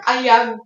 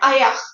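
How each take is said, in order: First: The word ends with a g sound. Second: The word ends with a k sound. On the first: This follows the written spelling. "it's written like ayag" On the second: This is how it is actually spoken. "you pronounce it like ayak"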